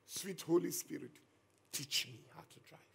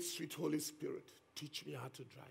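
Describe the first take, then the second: First: Hushed, trusting prayer repeated; soft prayerful plea. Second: Hushed, humble prayer to the Spirit; soft prayerful plea. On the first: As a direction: breathe the prayer gently again. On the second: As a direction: pray it softly, like a nervous boy. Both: Retold or imitated. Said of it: "Can you hear that faith?".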